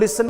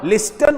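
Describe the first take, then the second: First: The t sound is left out entirely. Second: The t sound is pronounced in the middle. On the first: The speaker calls it right. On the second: The speaker calls it wrong.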